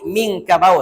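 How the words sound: The 'nang' syllable is dropped. This is how Arabs say the name.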